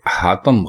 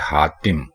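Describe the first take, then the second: First: The second syllable has an 'a' vowel. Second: The second syllable has an 'i' vowel. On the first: The speaker calls it wrong. "ते के ऊपर जबर लगा देते हैं जिससे ये हातम बन जाता है, जबकि हातम गलत लफ्ज है" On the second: The speaker calls it right. "दुरुस्त लफ्ज है हातिम, यानी आप ते के नीचे जेर लगाकर"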